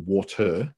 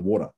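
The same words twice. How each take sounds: First: The middle consonant is a crisp T sound. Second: The middle consonant is a soft D sound. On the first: "we're not looking to go in the water" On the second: "we change, you know, letters from T to D"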